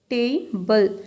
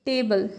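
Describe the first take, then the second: First: "table" split in two, long stressed "टे"; first-syllable stress. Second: Said in the usual way. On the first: Shown as a demonstration. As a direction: stretch "टे" in "table", then a separate "बल". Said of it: "पहले वाले में आपने ज़्यादा stress दिया है". ("टेबल" के "टे" पर ज़ोर, तोड़कर) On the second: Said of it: "पहले वाले में आपने ज़्यादा स्ट्रेस".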